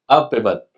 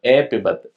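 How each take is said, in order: First: The first vowel sounds like 'a'. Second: The first vowel sounds like 'e'. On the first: The speaker calls it right. "ए नहीं अ" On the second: The speaker calls it wrong. "ए नहीं अ"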